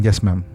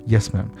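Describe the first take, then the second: The two takes are said the same way.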